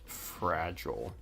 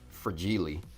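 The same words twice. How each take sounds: First: The word is pronounced the ordinary way. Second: The word is pronounced in an unusual, joking way.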